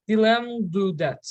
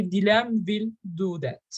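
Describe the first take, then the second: First: "will" shrunk to 'll after "Dilan"; contracted "will". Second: "Dilan will" as two full words; uncontracted "will". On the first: Teacher warning about names, "Dilan will" contracted to Dilan'll. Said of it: "with two L". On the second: Teacher giving the correct form with names, full "will". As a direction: give "will" its whole sound after "Dilan". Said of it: "You have to say". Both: Shown as a demonstration.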